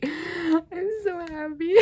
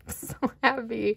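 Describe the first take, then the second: First: Very high, slow, teary and squeaky; happy tears. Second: Said in the usual way. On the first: Real, not acted. Fan repeats it over the photo card, teary joy. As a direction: let the joy crack your voice.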